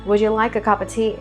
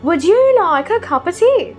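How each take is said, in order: First: The pitch stays mostly level throughout. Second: The pitch jumps high and drops repeatedly. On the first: The speaker sounds American. "Their voice is majorly flat" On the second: The speaker sounds British. "So they go really high and again drop and go high and drop"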